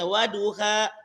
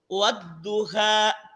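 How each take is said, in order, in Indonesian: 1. Konsonannya dibaca pendek, tidak dobel. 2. Konsonannya dibaca dobel dan ditebalkan. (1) "Terkadang aku biasa membaca wadduha" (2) "harusnya dibaca di situ wadduha"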